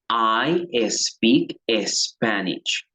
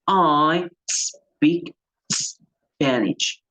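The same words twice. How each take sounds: First: An extra e vowel comes before each s. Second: Each s starts directly with no vowel. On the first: The speaker calls it wrong. "yo no diría" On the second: The speaker calls it right. "Yo diría"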